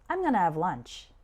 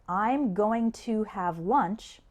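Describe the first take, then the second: First: The words are linked and sounds are reduced. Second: Each word is pronounced separately and clearly.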